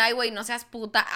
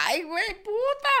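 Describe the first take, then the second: First: Said in the usual way. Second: Mock hurt. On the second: Contrasting insult takes.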